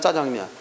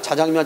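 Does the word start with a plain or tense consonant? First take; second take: tense; plain. First: The first consonant is tense and hard. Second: The first consonant is plain and lax. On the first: "그 된소리 된 것도 인정해 줬어" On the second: "원래 자장면이 맞았는데"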